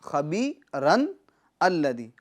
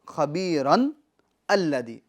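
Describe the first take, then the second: The two takes are said the same way.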